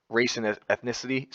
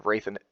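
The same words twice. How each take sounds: First: Said in the usual way. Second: "race" lisped as "raith", the s turned into a th. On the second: Real, not acted. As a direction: say "race" with a lisp so it comes out "raith". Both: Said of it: "sorry for the lisp".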